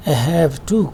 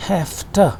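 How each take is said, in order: First: "have" with voiced v, then a full "to"; unreduced "I have to", v kept in "have"; full, careful form. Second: "have to" said as "hafta"; one word "hafta" for "have to"; assimilated, voiceless f. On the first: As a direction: say "have to" as two words, "to" as "too". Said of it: "तो वो sound जो कि voiced है". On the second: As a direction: turn the v of "have" into f, "to" into "ta". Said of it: "ये voiceless फ sound हो जाता है". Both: Shown as a demonstration.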